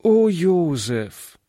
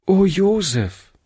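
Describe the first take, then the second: First: Slow, pleading call of his name; pleading girl. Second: Put-on a higher girl's voice, calling his name with pity; a little girl calling out gently; girl's sympathetic call. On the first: Girl begging the boy not to quarrel, slow and pleading. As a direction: beg him gently to stop. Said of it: "bat Hannchen". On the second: Girl greeting the injured boy, with pity. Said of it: "sagte sie". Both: A narrator's reading.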